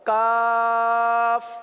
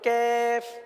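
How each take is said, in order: First: The vowel is a plain open 'aa' sound. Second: The vowel sounds like 'ai' in 'kaif'. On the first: The speaker calls it right. "दुरुस्त तरीके से नॉर्मल अंदाज से पढ़ें" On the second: The speaker calls it wrong. "काफ के बजाय कैफ हो जाता है"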